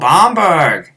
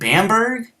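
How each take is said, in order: First: The name is said with a German accent. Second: The name is said with an American accent. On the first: Locals understood it. The speaker calls it right. "And they would say it" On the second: Locals did not understand it. The speaker calls it wrong. "I have just such an American accent"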